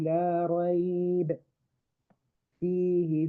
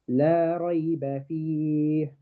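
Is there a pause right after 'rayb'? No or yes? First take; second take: yes; no. First: Rayb ends without a vowel, then a pause. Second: Rayb flows on with its final vowel, no pause. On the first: "if I'm going to pause to take a breath" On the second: "The ba in ريب has a fatha. I pronounced the ba"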